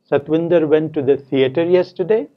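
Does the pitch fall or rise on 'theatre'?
rise. The pitch rises on the word theatre. It asks whether he went there or elsewhere. "Said with a rising tone on theatre"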